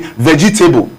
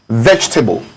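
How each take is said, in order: First: It is said with a common Nigerian pronunciation. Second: It is said with the standard pronunciation. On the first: The speaker calls it wrong. "A lot of Nigerians will say vegetable" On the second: The speaker calls it right. "We have a word like vegetable"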